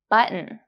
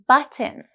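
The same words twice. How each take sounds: First: The t is swallowed into a glottal stop. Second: The t is pronounced as a clear t. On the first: "But in American English, it's pronounced button" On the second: "In British English, it is pronounced button"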